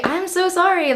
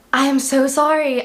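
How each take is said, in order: First: Sorry pushed much higher; high emphatic apology. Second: Said in the usual way. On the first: Real, not acted. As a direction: plead it high and bright. Repeated apology, pitched up.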